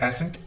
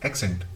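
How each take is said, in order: First: The word is said without a k sound. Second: The word is said with a k sound. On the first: The speaker calls it wrong. "Not एसेंट" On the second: The speaker calls it right.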